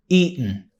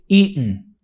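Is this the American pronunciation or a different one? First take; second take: American; American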